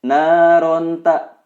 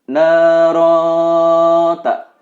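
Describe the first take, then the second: First: The n is pronounced clearly before the t. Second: The n is hidden in a nasal sound. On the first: The speaker calls it wrong. "Tidak dibenarkan membacanya naronta" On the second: The speaker calls it right. "ini adalah ikhfa. Tanwin an bertemu huruf ta"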